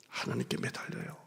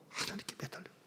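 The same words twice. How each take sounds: First: Intimate whispered plea. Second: Barely audible breath; faint whisper. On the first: Pastor urging the congregation in a whisper. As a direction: whisper it like a secret. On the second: Pastor repeating the plea in a faint whisper. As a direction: let it fade almost to nothing. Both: Acted.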